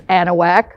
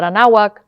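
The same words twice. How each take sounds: First: "Anahuac" said AN-uh-wak, first syllable stressed; correct pronunciation. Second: "Anahuac" said the wrong way, uh-NAH-wuk; wrong pronunciation. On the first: Teacher correcting the class, giving the right "Anahuac". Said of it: "it's not Anahuac, it's Anahuac". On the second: Teacher correcting the class, giving the wrong "Anahuac" first. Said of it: "it's not Anahuac". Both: Shown as a demonstration.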